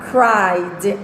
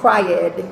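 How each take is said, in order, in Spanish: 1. La terminación se une a la palabra como una sola sílaba. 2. La terminación se pronuncia como una sílaba separada. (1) "se pronuncia cried"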